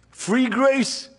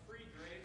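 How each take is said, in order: First: Free grace called out higher, in full voice; proclaimed. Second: Barely voiced whisper of the words Free grace. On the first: Preacher affirms the congregation's answer, proclaiming it aloud. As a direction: ring out Free grace to the room. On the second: Preacher echoes the answer under his breath, whispering. Pastor repeats answer from congregation. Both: Real, not acted.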